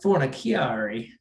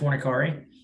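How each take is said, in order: First: The name is said fully and drawn out. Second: The name is said short and plain. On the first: This copies the announcers' showy way of saying it. "they went like full on like Fornaciari with it" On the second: This is the everyday way of saying it. "I've always said Fornicari"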